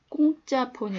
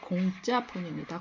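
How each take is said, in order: First: The first consonant is a tense, hard k. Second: The first consonant is a plain, soft k. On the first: The speaker calls it wrong. "아니고" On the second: The speaker calls it right. "한자에서 온 말입니다"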